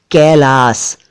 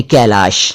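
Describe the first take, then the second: First: First "कैलाश" ending in "s", "kailaas"; final S variant. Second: "कैलाश" ending in "sh", "kailaash"; final SH variant. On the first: Teacher listing the word's first form, "कैलाश" as "kailaas". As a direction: finish "कैलाश" on a hissed "s", not "sh". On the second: Teacher giving the equivalent form, "कैलाश" as "kailaash". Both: Shown as a demonstration. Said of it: "यानी कैलाश".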